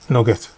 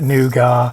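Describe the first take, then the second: First: It begins with a short 'nug' sound. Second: It begins with a long 'noo' sound. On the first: This is how it is said in Northern England. "where I grew up, you pronounce it nugget" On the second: This is how most other people say it. "I know everyone else calls it nougat"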